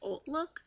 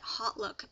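First: The name begins with a vowel sound. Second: The name begins with an H sound. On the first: "some people pronounce it Old Look" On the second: "I like to say Hot Look because it starts with an H"

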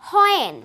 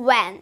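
First: The word begins with a 'hoy' sound. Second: The word begins with a 'w' sound. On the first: The speaker calls it wrong. "আমরা কিন্তু প্রায় সময় বলে থাকি হয়েন, হয় উচ্চারণ করে থাকি" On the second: The speaker calls it right. "সঠিকভাবে উচ্চারণ করব উ এর মতো একটা সাউন্ড দিয়ে"

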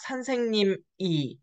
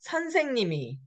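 First: A break separates the noun from the particle. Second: The final consonant carries over into the particle. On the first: The speaker calls it wrong. "the way you should read it is not 선생님 e" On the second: The speaker calls it right. "You have to remember the liaison rule"

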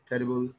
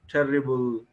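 First: The middle consonant is short and single. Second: The middle consonant is held long and doubled. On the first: The speaker calls it right. "No doubling is there required for pronunciation" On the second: The speaker calls it wrong. "even doubling of the consonant"

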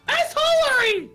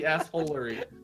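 First: It is said at a higher pitch. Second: It is said at a lower pitch.

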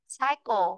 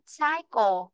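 Both takes have the same delivery.

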